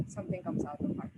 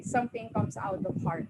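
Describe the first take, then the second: First: Something comes out of heart said on a breathy, unvoiced, moved hush; emotional. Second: Said in the usual way. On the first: Real, not acted. Panelist moved by her own point, emotional hush. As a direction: let the feeling catch the words. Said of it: "Oh my gosh, I'm getting emotional". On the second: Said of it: "I'm getting emotional".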